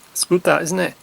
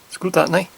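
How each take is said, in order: First: The tag is said in full as 'isn't it'. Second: The tag is squeezed into the single syllable 'nye'. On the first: "instead of saying isn't it" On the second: "We say it's good that, nye"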